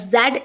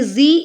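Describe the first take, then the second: First: The letter is said as zed, British style. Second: The letter is said as zee, American style.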